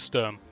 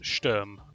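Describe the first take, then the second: First: The name is said with English pronunciation. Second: The name is said with German pronunciation. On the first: "so we'll stick with Sturm" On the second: "or I suppose Sturm, but Germanic inflection's a bit difficult"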